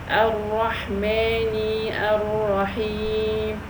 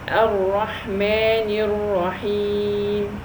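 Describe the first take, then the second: First: The vowel after the n is drawn out long. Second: The vowel after the n is kept short. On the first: The speaker calls it wrong. "if I elongate the kasra, that will produce" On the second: The speaker calls it right. "How can I pronounce the two words together?"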